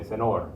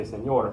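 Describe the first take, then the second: First: "senor" with a plain n, sen-OR; no y glide in "senor", only n; senor without tilde. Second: "señor" with an ny glide, sen-YOR; señor with tilde. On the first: Teacher showing students the unrecognizable version, plain-n mispronunciation. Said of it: "if you say senor". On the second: Teacher contrasting the intended word for students, correct ny sound. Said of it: "your meaning to say señor". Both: Shown as a demonstration.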